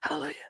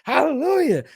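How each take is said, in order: First: The word is whispered quietly. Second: The word is shouted loudly. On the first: The speaker felt unsure and self-conscious. "I used to whisper like" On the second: The speaker feels confident. "now after I get more confident, I'd be like"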